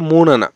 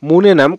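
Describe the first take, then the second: First: The final m sound is dropped and blended. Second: The final m sound is clearly pronounced.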